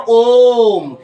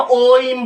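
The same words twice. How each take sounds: First: ओम very slow and louder, one long held o; right way, om. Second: ओइम said as two vowels, o then im; the stylish ओइम, o-im in two parts; wrong way, oim. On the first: Teacher showing students the right way, ओम long and slow. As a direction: stretch ओम out, long and steady. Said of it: "इसका कोई उच्चारण नहीं होता". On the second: Teacher showing students the wrong way, ओइम as o-im. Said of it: "ये ओइम नहीं है". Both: Shown as a demonstration.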